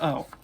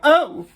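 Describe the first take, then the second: First: It is said flatly, without energy. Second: It is said as a loud exclamation.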